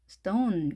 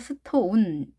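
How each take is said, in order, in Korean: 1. 모음은 가볍고 약하게 발음합니다. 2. 모음은 완전하고 강하게 발음합니다. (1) "가볍게 하시면 되겠습니다" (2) "이렇게 하지 마시고요"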